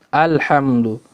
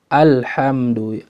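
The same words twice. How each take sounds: Both takes have the same delivery.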